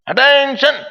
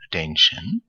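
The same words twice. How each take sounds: First: It is barked loudly like a command. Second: It is said softly and gently.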